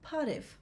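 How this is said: It starts with a voiceless P sound.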